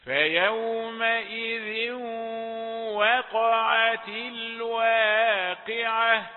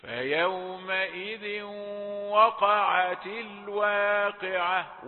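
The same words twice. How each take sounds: First: Slow, high, loud chant with thin w in "وقعت"; tarteel, light waw. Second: Recited with a dark, heavy "wa" in "وقعت"; slow chant, thicken the w of "وقعت"; thick waw. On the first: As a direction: sustain each syllable, keep "وقعت" light at the start. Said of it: "إلا بقراءة الترتيل". (ترتيل عالٍ ممدود بواو "وقعت" رقيقة) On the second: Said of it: "الخطأ بقى نسمع ناس كتير يقولوا". (ترتيل بتفخيم واو "وقعت" خطأً) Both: Shown as a demonstration.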